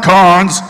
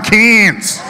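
First: "Cairns" said as "carns", R sounded; pronounced with R. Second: "Cairns" said as "cans", no R; local Australian pronunciation. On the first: Shown as a demonstration. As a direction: say "Cairns" with an open ah and Irish R. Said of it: "They didn't like the way I pronounced it". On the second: Retold or imitated. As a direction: drag out "Cairns" into an Aussie "caanz". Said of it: "They're like, It's not Cairns".

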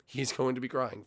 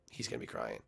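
First: Said in the usual way. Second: Hushed teasing jab at the rival; softly gloating whisper; whispered taunt. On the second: Pretend. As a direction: whisper it like a sly aside.

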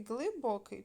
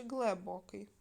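First: First syllable clearly ГЛИ in Глибокий; spelling option with И. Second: First syllable turned to ГЛЕ in глибокий; spelling option with Е. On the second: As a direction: say глибокий as глебокий, with open е. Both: Shown as a demonstration. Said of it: "Нам треба вставити літери".

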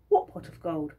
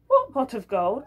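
First: Flat innocent denial; playing innocent. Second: Higher, louder echo with a rising tune; mock echo. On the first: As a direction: shrug it off as if you know nothing. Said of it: "said Georgie". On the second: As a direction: repeat his question back, teasingly. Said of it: "Oh, that pot of gold".

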